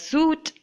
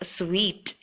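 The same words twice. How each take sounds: First: The word sounds like suit. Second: The word sounds like sweet. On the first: The speaker calls it wrong. "it shouldn't be uh, pronounced as suite. Suit is something else" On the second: The speaker calls it right. "just like how you would say sweet"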